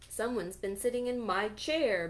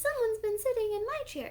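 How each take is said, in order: First: The voice is big, deep and loud. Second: The voice is tiny and squeaky. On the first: "bellowed Papa Bear in his great big voice" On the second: "squealed little baby bear in his wee little voice"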